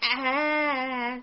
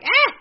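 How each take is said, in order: First: It is a held-back, restrained sound. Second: It is a loud, startled cry.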